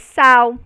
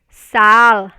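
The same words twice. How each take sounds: First: The final consonant sounds like a U vowel. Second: The final consonant sounds like a clear L. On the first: This is the common way most speakers say it. "Se pronuncia como um som de U" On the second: This is how it is said in the southern region. "ainda continua sendo pronunciada como L"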